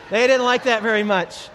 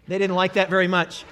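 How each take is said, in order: First: Didnt punched louder; stress on didn't. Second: Said in the usual way. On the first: Shown as a demonstration. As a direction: lean hard on didnt.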